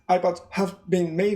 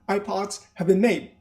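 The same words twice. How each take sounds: First: The word made is not stressed. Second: The word made is clearly stressed.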